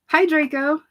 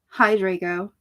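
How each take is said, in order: First: It is said in an ordinary, undepressed tone. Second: It is said in a gloomy, depressed tone.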